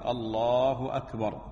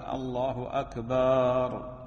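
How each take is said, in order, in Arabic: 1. تُنطَق قصيرة ولا تُمَدّ فيها الحركة. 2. الحركة بعد ba في أكبر تُمَدّ. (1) "من السنة الحذف وعدم التمطيط في التكبير، يقول الله أكبر" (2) "ومن الخطأ أيضا مد باء أكبر، وبعضهم يقول الله أكبر"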